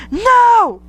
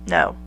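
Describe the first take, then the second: First: A high, loud shrieked no; panicked no. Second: Said in the usual way. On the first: Shown as a demonstration. Reader showing the woman's proper terrified reaction, shrieked high. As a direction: scream it like you're terrified. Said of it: "instead of going". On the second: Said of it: "Your response is".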